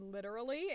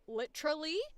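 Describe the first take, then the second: First: It is said with a non-British pronunciation. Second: It is said with a British pronunciation. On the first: The speaker calls it wrong. "I said literally instead of" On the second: The speaker calls it right. "like a Brit would"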